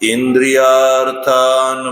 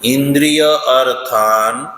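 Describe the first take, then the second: First: It is said as one joined word. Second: It is said as two separate words.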